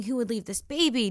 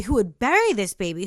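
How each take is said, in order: First: Said in the usual way. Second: "bury" punched louder in a quick question; stress on bury. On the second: Retold or imitated. Asking the shadow who did this, with "bury" stressed hard. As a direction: hit the word "bury" hard, as the correction.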